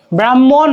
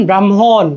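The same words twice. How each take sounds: First: ব্রাহ্মণ as "bram-mon", doubled m, rising end; pronunciation without h. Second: ব্রাহ্মণ as "bram-hon", falling end; pronunciation with h. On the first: Teacher contrasting forms, ব্রাহ্মণ as "bram-mon" without h. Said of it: "উচ্চারণটা হবে কি ব্রাহ্মণ". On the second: Teacher showing an h sound comes in, ব্রাহ্মণ as "bram-hon". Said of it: "একটা হ উচ্চারণ আসতেছে না". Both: Shown as a demonstration.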